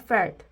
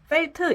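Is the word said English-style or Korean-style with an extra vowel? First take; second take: English-style; Korean-style. First: It is said English-style as one syllable. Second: It is said Korean-style with an added final vowel. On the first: The speaker calls it right. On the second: The speaker calls it wrong.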